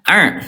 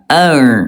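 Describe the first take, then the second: First: The ain sound is cut off abruptly. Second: The ain sound flows on slightly. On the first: The speaker calls it wrong. "yang ke satu" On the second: The speaker calls it right. "yang betul adalah yang kedua, ya sedikit mengalir"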